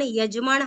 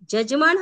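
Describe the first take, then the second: First: The word begins with a y sound. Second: The word begins with a j sound. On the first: The speaker calls it right. "यजमान हा शब्द शुद्ध आहे" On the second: The speaker calls it wrong. "जजमान हा चुकीचा आहे, अशुद्ध आहे"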